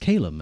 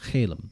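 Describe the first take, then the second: First: The word begins with a hard k sound. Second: The word begins with a ch sound. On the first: The speaker calls it right. "sounds better as Calum" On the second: The speaker calls it wrong. "and not Chalem"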